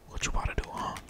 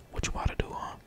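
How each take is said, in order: Both takes have the same delivery.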